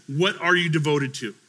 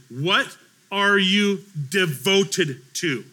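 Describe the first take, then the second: First: Said in the usual way. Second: Very slow, deliberate questioning; slow, weighty question. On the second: Real, not acted. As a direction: put the question word by word. Poses question to congregation slowly.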